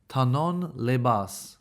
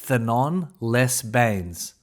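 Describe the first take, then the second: First: The name is said with French pronunciation. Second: The name is said with anglicized pronunciation. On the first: The speaker calls it right. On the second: The speaker calls it wrong.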